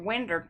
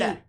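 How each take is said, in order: First: It ends with an 'er' sound. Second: It ends with a clear 'oh' sound.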